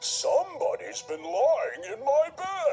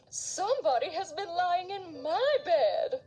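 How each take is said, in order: First: It is said in a deep, gruff voice. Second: It is said in a moderate, middle voice.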